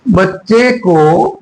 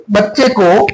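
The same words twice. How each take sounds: First: बच्चे को at half speed, each word stretched; slow dictation. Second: Said in the usual way. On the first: Shown as a demonstration. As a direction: draw out बच्चे को for people writing it down. Slow repeat for students writing.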